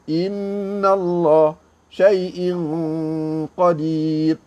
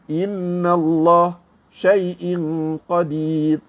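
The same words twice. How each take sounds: First: It is recited at moderate speed, slightly longer hum. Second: It is recited quickly with a short nasal hum. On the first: This is the moderate recitation pace. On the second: This is the quick recitation pace. "Kalau laju"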